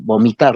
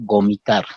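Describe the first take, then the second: First: The word begins with a B sound. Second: The word begins with a G sound. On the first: "En palabras como vomitar" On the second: "reemplazan el palabra con el sonido B por el sonido G"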